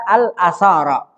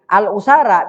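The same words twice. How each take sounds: First: Al-asara said with an a sound, al-asara; first vowel as a in al-asara; reading with a. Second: Al-usara said with a u sound, al-usara; first vowel as u in al-usara; reading with u. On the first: Teacher showing students the a reading, al-asara. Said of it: "bisa dibaca al-asara". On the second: Teacher showing students the u reading, al-usara. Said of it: "Al-usara bisa dibaca al-usara". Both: Shown as a demonstration.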